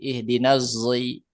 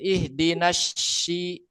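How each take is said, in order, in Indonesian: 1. Kata kedua diawali dengan bunyi z. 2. Kata kedua diawali dengan bunyi sh. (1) "bisa dibaca jai, zai" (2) "yang pakai shin"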